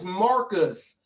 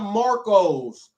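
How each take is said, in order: First: The name ends with an 'us' sound. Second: The name ends with an 'os' sound. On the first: The speaker calls it right. "His name is Marcus" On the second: The speaker calls it wrong. "not Marcos, like Marco's Pizza"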